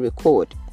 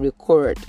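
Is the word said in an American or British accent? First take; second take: British; American. First: It is said in a British accent. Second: It is said in an American accent. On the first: "in British English you'd hear" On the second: "in American English you'd hear record. You'll hear that R, it must be sounded"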